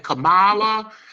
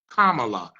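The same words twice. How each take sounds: First: The first part does not sound like 'comma'. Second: The first part sounds like the word 'comma'. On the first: The speaker calls it wrong. "if you say Kamala, if you say anything that is remotely in error" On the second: The speaker calls it right. "as in a comma, la"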